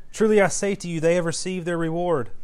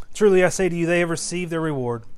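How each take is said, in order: No difference in how they are said.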